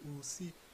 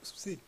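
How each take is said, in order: First: The opening 'ou' vowel is clearly heard. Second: The opening 'ou' vowel is swallowed and unclear. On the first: The speaker calls it right. "je montre bien qu'il y a un ou" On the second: The speaker calls it wrong. "là j'ai mal prononcé le ou"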